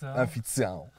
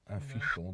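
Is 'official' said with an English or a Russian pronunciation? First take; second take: Russian; English. First: It is pronounced the Russified way. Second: It is pronounced the English way. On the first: "задеревянить" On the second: "Official сказать"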